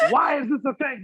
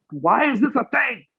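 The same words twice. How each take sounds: First: Higher whiny wail. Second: Much higher, crying whine of outrage; whiny mock cry. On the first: Retold or imitated. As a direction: whimper it out, near tears in mock despair. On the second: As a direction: wail it like a betrayed fan. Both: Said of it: "I'm just like".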